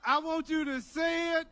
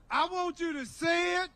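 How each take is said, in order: Both takes have the same delivery.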